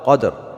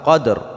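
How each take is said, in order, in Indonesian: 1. Kata ini berakhir dengan bunyi r yang jelas terdengar. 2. Kata ini berakhir dengan bunyi r yang jelas terdengar.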